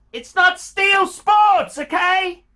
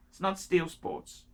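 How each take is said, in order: First: High, loud and slow, hammering the point; exasperated shout. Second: Said in the usual way. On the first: Real, not acted. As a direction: yell it at him, fed up. Ranting about watch choice.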